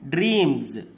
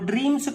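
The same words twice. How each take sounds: First: The word ends with a z sound. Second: The word ends with an s sound. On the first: The speaker calls it right. "డ్రీమ్స్ అనాలి" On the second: The speaker calls it wrong. "డ్రీమ్స్ కాదు"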